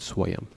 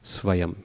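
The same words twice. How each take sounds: First: The word begins with a W sound. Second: The word begins with a V sound. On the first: The speaker calls it wrong. "rather than" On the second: The speaker calls it right. "best just to pronounce it as a V"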